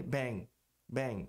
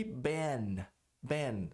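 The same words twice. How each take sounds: First: Bang com final nasal atrás; N não pronunciado. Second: Ban alongado com N final claro; língua no palato no fim de ban; N pronunciado. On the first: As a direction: termine bang sem tocar a ponta da língua. (bang nasal, sem N claro) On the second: (ban com N bem pronunciado) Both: Shown as a demonstration. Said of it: "Se eu não pronunciar o N".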